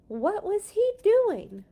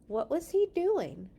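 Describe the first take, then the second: First: High, loud and slow, full of wonder; dramatic excited reread. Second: Said in the usual way. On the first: A narrator's reading. Reader redoes the line with excitement, high and loud. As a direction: lift it big and slow with suspense. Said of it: "That was exciting to read".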